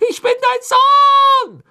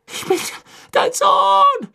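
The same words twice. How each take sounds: First: Noch lauter, langsam, Betonung auf „dein“; brüll es mit aller Kraft heraus; gellender Schrei. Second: Hoher, lauter Verzweiflungsschrei; Schrei des Sohnes. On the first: (langsam und laut, „dein“ herausgeschrien) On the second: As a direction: schrei zum Vater hoch. (hoch und laut verzweifelt geschrien) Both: A narrator's reading. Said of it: "schrie er zu Crouch hoch".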